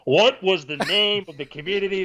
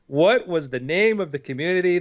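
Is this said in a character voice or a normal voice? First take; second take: character voice; normal voice. First: It is said in a put-on character voice. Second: It is said in the speaker's ordinary voice.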